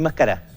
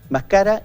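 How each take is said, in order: First: The stress is on the last syllable. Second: The stress is on the second syllable. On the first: Someone will chew in the future. "él o ella mascará a futuro" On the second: It is a past subjunctive form of chewing. "la palabra grave"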